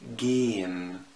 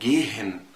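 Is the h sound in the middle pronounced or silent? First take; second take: silent; pronounced. First: The h is silent and the vowel is long. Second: The h sound is pronounced between the vowels. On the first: The speaker calls it right. "بنطق جين" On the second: The speaker calls it wrong. "الكلام ده غلط"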